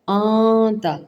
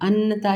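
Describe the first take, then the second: First: The n is hidden as a nasal sound. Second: The n is pronounced clearly and fully. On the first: The speaker calls it right. "इख्फा वाला कायदा" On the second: The speaker calls it wrong. "अन्नता नहीं करना"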